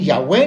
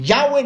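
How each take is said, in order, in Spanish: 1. El acento está en la última sílaba. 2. El acento está en la primera sílaba. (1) "ni Yahweh" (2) "Ni Yahweh"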